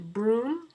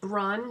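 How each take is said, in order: First: The vowel is long, rhyming with 'tune'. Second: The vowel is short, rhyming with 'run'. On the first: "some people pronounce it brune" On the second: "some people pronounce it brun"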